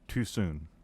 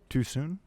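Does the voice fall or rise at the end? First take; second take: falls; rises. First: The voice falls at the end like a statement. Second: The voice rises at the end like a question. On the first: It states that something is too soon. The speaker calls it wrong. "No, that's not right" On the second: It asks whether something is too soon. The speaker calls it right. "there you go"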